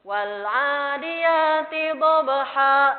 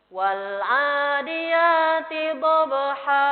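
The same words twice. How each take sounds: First: The final vowel is cut off with a glottal stop. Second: The final vowel flows on and fades out smoothly. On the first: The speaker calls it wrong. "Jangan sampai diputus dengan hamzah sukun tadi" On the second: The speaker calls it right. "Mengalir terus hilang. Kayak gitu"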